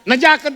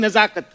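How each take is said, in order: First: The middle consonant is a 'j' sound. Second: The middle consonant is a 'z' sound. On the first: The speaker calls it wrong. "नहीं" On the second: The speaker calls it right. "ज के नीचे नुक्ता है"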